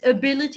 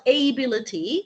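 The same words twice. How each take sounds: First: The start does not sound like 'able'. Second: The start sounds like the word 'able'. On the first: The speaker calls it right. "it's ability" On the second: The speaker calls it wrong. "It's not ability. ... It's different from able"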